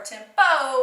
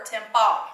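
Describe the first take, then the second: First: "tempo" ending in a clear "oh"; long O. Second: "tempa" ending in an open "ah"; short O. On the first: Teacher contrasting endings for pupils, "tempo" with long O. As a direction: say "tempo" as TEM-POH, final vowel long. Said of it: "the vowel is gonna be long". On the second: Teacher showing a misreading of tempo, "tempa" with short O. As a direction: say "tempa" as TEM-PAH, final vowel short. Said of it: "the vowel is gonna be short". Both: Shown as a demonstration.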